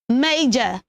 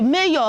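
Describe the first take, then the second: First: The word sounds like 'major'. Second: The word sounds like 'mayor'. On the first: The speaker calls it right. "is not mayor. It is major" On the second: The speaker calls it wrong. "So many of us pronounce that as, we say, hey, mayor"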